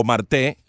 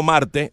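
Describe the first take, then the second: First: "Marte" as mar-TÉ; final-syllable stress. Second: "Marte" as MAR-te; first-syllable stress. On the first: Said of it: "distintas maneras de pronunciarlo según la acentuación". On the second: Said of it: "según la acentuación". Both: Shown as a demonstration.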